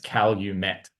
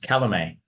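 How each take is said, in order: First: The name is said like 'Cal you met'. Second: The name is said like a French word. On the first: The speaker calls it right. "they actually pronounce it as Calumet ... It was Cal you met" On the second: The speaker calls it wrong. "I thought they pronounced it as Calumet, because um, there's a lot of French influence"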